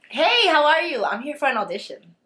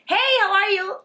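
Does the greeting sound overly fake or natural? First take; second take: natural; overly fake. First: The greeting sounds friendly and natural, slightly polished. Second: The greeting still sounds exaggerated and overdone.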